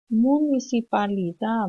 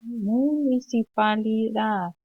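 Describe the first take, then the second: First: Municipalidad, Guarani style with no final D; Guarani pronunciation. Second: Municipalidad said slowly in Castilian Spanish, the final D clearly sounded; Spanish pronunciation. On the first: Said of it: "Sin la pronunciación de la D en guaraní". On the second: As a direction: pronounce the D at the end of Municipalidad, slowly. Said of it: "Se pronuncia la D". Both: Shown as a demonstration.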